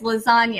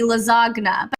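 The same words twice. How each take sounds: First: The G sound is left silent. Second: The G sound is clearly pronounced. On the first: The speaker calls it right. "so it's a silent G" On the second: The speaker calls it wrong. "if you pronounce the G in lasagna"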